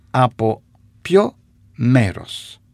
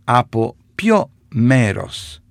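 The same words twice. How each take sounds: The two takes are said the same way.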